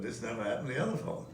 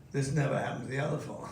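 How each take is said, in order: First: Line as delivered. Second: Quoting the line. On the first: Shown as a demonstration. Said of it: "So I just said". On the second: Retold or imitated. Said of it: "Say that line of yours".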